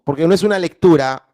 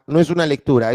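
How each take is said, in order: First: Fast with es punched; no es una lectura with es punched hard; stressed es. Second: Said in the usual way. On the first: Shown as a demonstration. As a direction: push through, hitting es. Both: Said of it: "esto es un texto".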